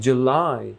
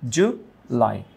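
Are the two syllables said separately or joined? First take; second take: joined; separately. First: The word is said joined with a stressed syllable. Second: The two syllables are said apart with a break. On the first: "যেহেতু stress থাকে... জুলাইকে উচ্চারণ করেছে July" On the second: "কয়টা syllable? দুইটা"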